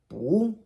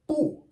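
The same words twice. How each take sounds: First: The syllable is said with a rising tone. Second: The syllable is said with a falling tone. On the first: "second tone" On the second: "fourth tone"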